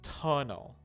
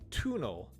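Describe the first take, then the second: First: The first vowel is a short uh sound. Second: The first vowel is a long oo sound. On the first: The speaker calls it right. "It has an uh sound, which we usually call a schwa" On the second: The speaker calls it wrong. "it's not like tunnel, tunnel. That's not how we usually say that"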